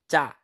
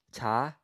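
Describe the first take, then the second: First: "cha" with a tense, hard consonant; strong accent. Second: Said in the usual way. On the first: Shown as a demonstration. Teacher showing the difference, "cha" with strong accent. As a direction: hit the start of "cha" tight, no puff of air. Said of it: "add strong accent to it". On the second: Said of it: "here's the difference".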